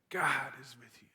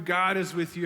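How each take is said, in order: First: Soft intimate whisper. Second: Said in the usual way. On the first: Real, not acted. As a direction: lean in and breathe it softly. Repeated reassurance, now whispered.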